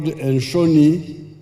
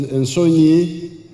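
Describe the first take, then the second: First: "Enshoni" with a sh sound; slow "Enshoni" with sh, not s; Bantu dialect form. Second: "Ensonyi" with s, not sh; slow "Ensonyi" ending in nyi; Ugandan form. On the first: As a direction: say "Enshoni", sh in the middle, slowly. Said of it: "in the Bantu dialects called". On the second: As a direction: say "Ensonyi", plain s and ny. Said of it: "In Uganda, it is". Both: Shown as a demonstration.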